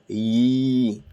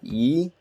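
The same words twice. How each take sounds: First: The vowel is held longer. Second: The vowel is short. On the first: "and then a little bit of prolongation" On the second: "ya, kasra, yi"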